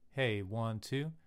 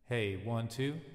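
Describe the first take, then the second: First: The voice sounds dry with little room echo. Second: The voice has a huge, roomy reverb.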